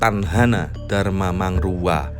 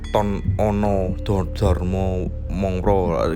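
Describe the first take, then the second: First: The vowels are pronounced as a sounds. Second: The vowels are pronounced as o sounds. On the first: The speaker calls it right. "Jadi Tanhana Dharma Mangrwa" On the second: The speaker calls it wrong. "membaca Sanskerta itu tidak bisa dengan o ... gak begitu"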